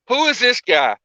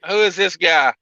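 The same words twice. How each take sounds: First: Pitched higher, teasing who-is-this; playfully egging on the mystery guest; mock-curious repeat. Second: Said in the usual way. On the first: Host teasing the mystery guest on air, mock-curious.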